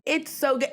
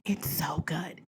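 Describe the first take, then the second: First: Said in the usual way. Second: Soft unvoiced whisper of awe; hushed reverent whisper; whispered praise. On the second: Real, not acted. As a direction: whisper it like a precious secret. Whispered then repeated aloud.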